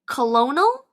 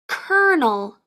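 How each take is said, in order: First: It is said with three syllables, as spelled. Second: It is said with two syllables, like 'kernel'. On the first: The speaker calls it wrong. "Did you say colonel? If you did, don't feel bad" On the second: The speaker calls it right. "It's pronounced kernel"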